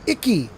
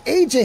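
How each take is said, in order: First: The name sounds like the word icky. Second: The name sounds like the letters A J. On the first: The speaker calls it wrong. "You don't pronounce it Icky" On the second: The speaker calls it right. "pronounced A J"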